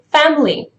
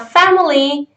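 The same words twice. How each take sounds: First: The second vowel is dropped, leaving two syllables. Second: All three syllables are said, including the second vowel. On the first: "in the connected speech, you would say family... there is no second vowel" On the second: "the word for a slow speech"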